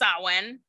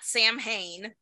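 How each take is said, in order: First: The word is said with its Gaelic pronunciation. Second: The word is said the way it is spelled. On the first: The speaker calls it right. "it's pronounced Samhain" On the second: The speaker calls it wrong. "not Samhain. Samhain is the American bastardized pronunciation"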